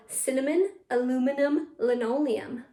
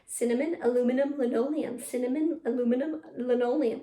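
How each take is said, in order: First: Each word set apart with small pauses; careful model take. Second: Brisker tongue twister, words closer together; a little faster. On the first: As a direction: list "cinnamon, aluminum, linoleum" clearly for pupils. Slower first take, then faster. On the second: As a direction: run it twice in a row, still clear. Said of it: "A little faster". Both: Shown as a demonstration.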